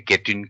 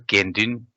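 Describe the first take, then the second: First: The first syllable has no nasal sound. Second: The first syllable ends in a nasal sound. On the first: The speaker calls it wrong. "we don't say getun" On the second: The speaker calls it right. "also nasalized, same as like mindu"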